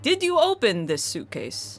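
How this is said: The pitch peaks mid-sentence, Russian style.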